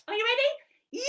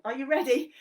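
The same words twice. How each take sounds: First: High squeaky monkey asking; Monkey puppet. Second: Said in the usual way. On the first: Acted. Monkey puppet checking the children are ready, high. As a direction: bounce it up as the puppet.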